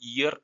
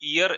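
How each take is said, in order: First: The word begins with a y sound. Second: The word begins directly with a vowel sound. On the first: The speaker calls it right. "യാ എന്ന് പറയുന്നത്" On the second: The speaker calls it wrong. "നമ്മൾ ചിലപ്പോൾ വിചാരിക്കും"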